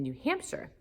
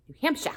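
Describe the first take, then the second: First: Said in the usual way. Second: New Hampshire sung out higher and louder with a rising tune; playful repeat. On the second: Acted. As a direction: toss off New Hampshire bright and high, rising at the end. Repeats place name playfully.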